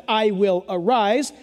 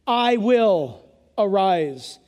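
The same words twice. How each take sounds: First: Arise lifted at the end; emphatic, slightly faster. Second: Slow, weighty I WILL ARISE; emphatic, drawn-out declaration. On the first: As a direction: stress ARISE with a rising finish. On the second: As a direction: lean hard on I will arise, slowly. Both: Shown as a demonstration. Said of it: "it's emphatic".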